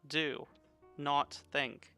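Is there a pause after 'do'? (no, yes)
yes. There is a pause after 'do'. Act instead of thinking. "That's a weird way to put it"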